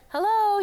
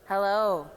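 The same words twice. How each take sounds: First: It is said very high, in head voice. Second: It is said lower, in chest voice. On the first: "this is your head voice, so go really high" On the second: "come into your chest voice"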